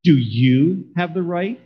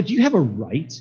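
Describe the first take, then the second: First: "you" drawn out and leaned on, slow question; stress on YOU. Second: "right" leaned on with a rising questioning tune; stress on RIGHT. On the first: God asking Jonah personally, slow stress on "you". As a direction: hit the word "you", stretching it pointedly. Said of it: "on the word you". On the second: God questioning Jonah's anger, stress on "right". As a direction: put the emphasis on the word "right". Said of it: "put the emphasis on the word right". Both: Shown as a demonstration.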